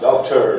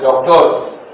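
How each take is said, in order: First: It is said with an American accent. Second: It is said with a Bangladeshi accent.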